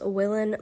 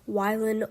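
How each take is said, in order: First: The first syllable sounds like 'will'. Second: The first syllable sounds like 'why'. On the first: The speaker calls it wrong. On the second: The speaker calls it right.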